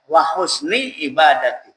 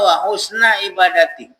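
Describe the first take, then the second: First: The word husni ends with an 'i' vowel. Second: The word husni ends with an 'a' vowel. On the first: The speaker calls it right. "Tak perlu wa husna" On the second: The speaker calls it wrong. "Ada orang yang latah kita dengar baca"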